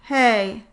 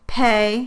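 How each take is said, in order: First: The P is released weakly, with little air. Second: The P is released with normal strength. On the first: "a weak version of the P sound" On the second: "a normal versus a weak version of the P sound"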